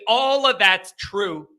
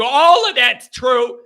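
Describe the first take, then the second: First: Said in the usual way. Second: "All" stretched, high and loud; emphatic concession. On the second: Real, not acted. Host granting the team still has flaws, "All" punched high. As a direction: lean hard on "All", slowing the phrase.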